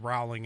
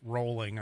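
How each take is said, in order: First: The first syllable does not sound like 'bowl'. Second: The first syllable sounds like 'bowl'. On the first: The speaker calls it wrong. "did I mispronounce uh, J K. Rowling? I, I said Rowling" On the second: The speaker calls it right. "It's actually rolling, I guess. Rolling as in bowling"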